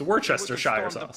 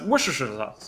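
First: It is said slowly and clearly. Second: It is said fast and mumbled. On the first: The speaker calls it right. "But now I'm just going to be like, oh, it's" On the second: The speaker calls it wrong. "I just always kind of just mumble my way through it or just say it really fast"

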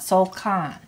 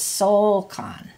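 First: The stress is on the second syllable. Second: The stress is on the first syllable. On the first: The speaker calls it wrong. "not soul kan" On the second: The speaker calls it right. "you keep the stress on the soul"

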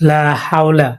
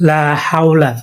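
Both takes have the same delivery.

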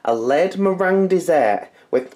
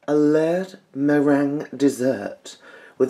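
First: It is read in a plain, ordinary accent. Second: It is read in a posh, upper-class accent.

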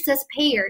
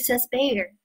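First: The consonant after s is aspirated. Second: The consonant after s is unaspirated. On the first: The speaker calls it wrong. "不是says Bayer" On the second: The speaker calls it right. "这个辅音它就会变发音"

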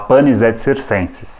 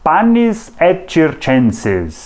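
First: It is pronounced in a Portuguese style. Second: It is pronounced in a Latin style. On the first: "Mas tudo bem se a gente falar" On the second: "A pronúncia em latim, sabe como é que é?"

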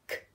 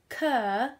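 First: The k is a bare sound with no vowel. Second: The k is followed by a short uh vowel. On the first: The speaker calls it right. "it's a k" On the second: The speaker calls it wrong. "be careful you don't schwa like I nearly did then. It's not a k"

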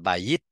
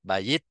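No difference in how they are said.

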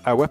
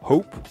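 First: It is said as the two syllables 'a-wap'. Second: It is said as the single syllable 'hope'. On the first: This is the usual French way to say it. "en français, on dit AWAP" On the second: This is the English way to say it. "la prononciation HOPE en anglais"

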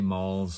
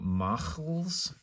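First: It is said plainly with no throaty sound. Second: A throaty 'ch' sound comes before the L. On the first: "You might say malls" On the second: "the pronunciation is supposed to be ch, ach"

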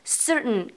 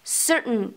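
The two takes are said the same way.

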